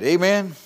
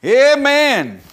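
First: Said in the usual way. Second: Loud, high amen falling; shouted amen. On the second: Real, not acted. Preacher rousing the congregation, loud high amen.

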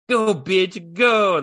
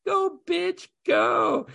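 First: Lightly voiced little kid, higher and louder; imitating his little son. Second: Put-on much higher little-kid yell; shrill kid shout imitation. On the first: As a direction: mimic a small boy blurting it out. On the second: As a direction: shout it like a gleeful toddler. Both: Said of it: "my son out of nowhere just says".

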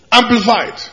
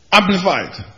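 First: Called out higher and louder; louder amplified. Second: Said in the usual way. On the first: Shown as a demonstration. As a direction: proclaim it big.

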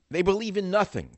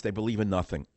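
First: They believe in "nothing" with nothing pitched much higher and hit hard; stress on nothing. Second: Said in the usual way. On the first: Shown as a demonstration. Host repeats his jab at campaign staff, punching "nothing". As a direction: jump up high on "nothing" and land it with a fall.

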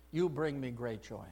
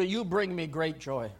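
First: You bring me great joy repeated much softer and lower; a quiet, tender echo of the Father; tender, hushed echo. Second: Said in the usual way. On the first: Acted. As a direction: breathe it again gently, like a father to a child. Voicing God's words twice.

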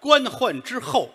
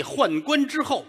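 First: 官宦之后 said slowly and high, each syllable set apart as the correct phrase; slow, deliberate 官宦之后 after being corrected; carefully corrected 官宦之后; corrected word order. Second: 宦官之后 said slowly and high, proudly, with the words swapped; slow, lofty 宦官之后 as if it were praise; pompous misspoken 宦官之后; wrong word order. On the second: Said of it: "宦官之后，那是太监". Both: Acted.

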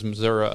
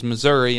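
First: "Missouri" with a final uh sound; northern pronunciation. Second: "Missouri" with a final ee sound; Boot Heel pronunciation. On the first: Host explaining the northern way, "Missouri" ending uh. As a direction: say "Missouri" as mi-ZUR-uh. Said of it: "up north it was". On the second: Host explaining the Boot Heel way, "Missouri" ending ee. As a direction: say "Missouri" as mi-ZUR-ee. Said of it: "I'd always heard in the Boot Heel". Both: Shown as a demonstration.

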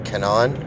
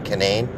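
First: Canine said kuh-NINE rising. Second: Canine said with a short a and NANE. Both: Shown as a demonstration. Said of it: "that's the actual name of it".

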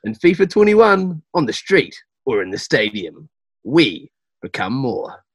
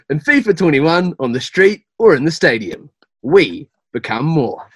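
First: Measured game promo voiceover, drawn-out ending; ad read. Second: Ad read. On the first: Voice actor reading the script for the studio, measured ad read. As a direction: read it like a slow TV slogan. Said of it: "do you want me to go cool". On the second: Voice actor repeats the uncaught line, projected ad read. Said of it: "we didn't quite catch that". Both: Pretend.

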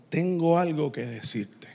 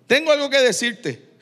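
First: Voz más grave y suave, de frente; serio y quedo. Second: Voz más aguda, cayendo al final; anuncio firme. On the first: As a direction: decirlo bajito y grave, como confidencia seria. Imagina al Señor hablándole de frente. (seriedad tranquila en voz baja) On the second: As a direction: anunciarlo claro, en tono alto. Repite la frase de Jesús a Simón. (llamado firme en tono más agudo) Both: Acted.

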